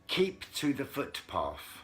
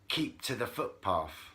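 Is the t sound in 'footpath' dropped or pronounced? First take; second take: pronounced; dropped. First: The t sound in footpath is pronounced. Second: The t sound in footpath is dropped.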